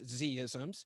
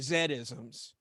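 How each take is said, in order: First: The Z is said the American way, zee. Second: The Z is said the British way, zed.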